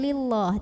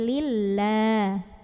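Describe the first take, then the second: First: The L sound is heavy and thick. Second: The L sound is light and thin. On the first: The speaker calls it wrong. "bukan lillah" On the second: The speaker calls it right. "bacanya tipis"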